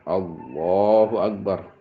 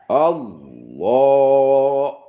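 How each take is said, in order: First: It is said short and quick, not drawn out. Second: The first word is stretched out very long. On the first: The intention was settled before the takbir began. The speaker calls it right. "Kalau takbiratul ihram jangan panjang-panjang" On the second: The intention is being recited during the takbir. The speaker calls it wrong. "takbiratul ihramnya panjang"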